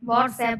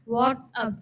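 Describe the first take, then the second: First: The last syllable sounds like 'app'. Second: The last syllable sounds like 'up'. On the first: The speaker calls it wrong. "नहीं" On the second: The speaker calls it right. "मतलब क्या हाल चाल"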